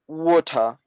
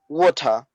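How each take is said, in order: First: It is said in a Trinidadian accent. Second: It is said in a Trinidadian accent.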